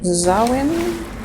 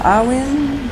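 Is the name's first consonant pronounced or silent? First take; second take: pronounced; silent. First: The name begins with a pronounced z sound. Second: The name begins directly with a vowel sound.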